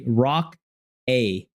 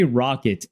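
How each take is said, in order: First: The word ends in a vowel, no T. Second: The word ends with a clear T sound. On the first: The speaker calls it right. "I say rock a, not rocket" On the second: The speaker calls it wrong. "I don't say rocket"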